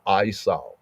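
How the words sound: The name has a Hebrew-style pronunciation. The speaker calls it right. "in proper ancient Hebrew enunciation"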